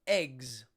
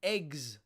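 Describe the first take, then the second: First: Eggs with the final sound as a hissed S; Eggs, s at the end. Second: Eggs with the final sound buzzed as a voiced Z; Eggs, z at the end. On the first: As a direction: say Eggs ending on a voiceless S. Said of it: "the last letter came off sounding like S". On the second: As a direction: say Eggs ending on a Z buzz. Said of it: "the S goes voiced". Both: Shown as a demonstration.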